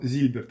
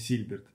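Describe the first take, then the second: First: The name begins with a Z sound. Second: The name begins with an S sound. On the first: The speaker calls it right. "он Зильберт" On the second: The speaker calls it wrong. "а не Сильберт"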